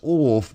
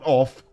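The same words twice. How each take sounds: First: The word is said in a posh accent. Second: The word is said in a plain accent. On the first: The speaker calls it right. "like the Queen says off" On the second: The speaker calls it wrong. "not off"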